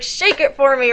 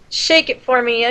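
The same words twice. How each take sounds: First: It is said loudly with forceful, high energy. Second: It is said in a flat, low-energy way. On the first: The singer attacks the song with intensity. The speaker calls it right. "You needed to be like, rah, like, attack the song" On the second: The singer does not seem to care much. The speaker calls it wrong. "you sounded really, like, nonchalant"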